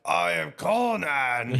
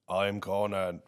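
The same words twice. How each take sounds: First: It is said with passion and feeling. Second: It is said flatly, without feeling.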